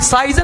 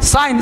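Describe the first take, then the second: First: The g sound is pronounced. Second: The g sound is silent. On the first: The speaker calls it wrong. "साइजन नहीं बोलेंगे" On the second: The speaker calls it right. "साइन है ना"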